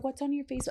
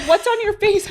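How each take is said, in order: First: Put-on high, soft small-child question; imitating little son. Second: Put-on very high, loud kid question; imitating little son. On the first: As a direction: ask softly in a little kid's voice. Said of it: "He said". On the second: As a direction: blurt it like a child, laughing. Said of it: "he's like".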